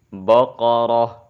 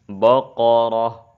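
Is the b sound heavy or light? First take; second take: heavy; heavy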